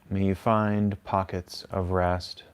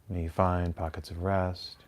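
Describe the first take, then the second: First: It is said at a slower pace. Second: It is said at a faster pace.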